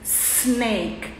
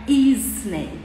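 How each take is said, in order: First: The word starts directly with the s sound. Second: A short vowel sound comes before the s. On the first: The speaker calls it right. "a gente diz snake" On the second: The speaker calls it wrong. "não é snake"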